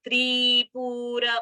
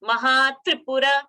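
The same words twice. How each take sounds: First: "Tripura" stretched as treee-pooo-ra; wrongly lengthened vowels. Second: "Mahatripura" with quick short tri and pu; short vowels. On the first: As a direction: drag out both tri and pu in "Tripura". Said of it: "and not Tripura". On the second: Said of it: "Tripura is a short". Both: Shown as a demonstration.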